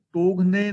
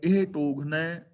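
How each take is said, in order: First: ਟੋਗਨੇ ending in a close "-ne"; wrong reading. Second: ਟੋਗਨੈ ending in an open "-nai"; correct reading. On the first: Teacher shows the reading to avoid, ਟੋਗਨੇ as "togh-ne". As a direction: say ਟੋਗਨੇ with a narrow "e" at the end. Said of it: "ਟੋਗਨੇ ਨਹੀਂ ਪੜ੍ਹਨਾ". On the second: Teacher shows the right reading, ਟੋਗਨੈ as "togh-nai". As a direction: say ਟੋਗਨੈ with a wide "ai" at the end. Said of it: "ਨੈ ਪੜ੍ਹਨਾ ਹੈ". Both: Shown as a demonstration.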